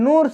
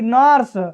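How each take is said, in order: First: The vowel is an 'oo' sound. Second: The vowel is a short 'uh' sound. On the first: The speaker calls it wrong. "ऐसे मत पढ़ दीजिएगा" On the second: The speaker calls it right. "यू के बाद आर आया है तो हम यू का उच्चारण ... अ से करेंगे"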